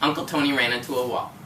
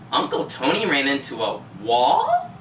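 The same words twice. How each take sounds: First: The voice stays level without changes. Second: The voice is raised and animated. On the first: "It's just a statement" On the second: "you raised your voice like"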